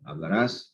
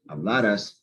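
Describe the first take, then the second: First: The stress is on the last syllable. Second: The stress is on the second-to-last syllable. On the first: It is the future tense. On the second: It is the past subjunctive.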